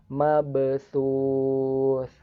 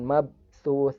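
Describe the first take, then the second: First: The b is released with a light bounce. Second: The b is cut off without bounce. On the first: The speaker calls it right. "Dipantulkannya ringan" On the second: The speaker calls it wrong.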